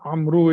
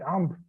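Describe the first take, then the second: First: The name ends with a short 'u' vowel. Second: The name ends on the consonant, without a vowel. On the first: The speaker continues without stopping after the name. "pronounced as Amru if you are not stopping" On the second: The speaker stops after the name. "if you stop, you don't say Amru, you say Amr"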